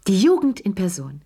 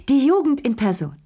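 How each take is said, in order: First: Said in the usual way. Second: Shrieked. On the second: A narrator's reading. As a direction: squeal it out in delight. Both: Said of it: "kreischte Madame Pelou".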